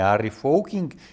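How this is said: The surname is pronounced the Dutch way.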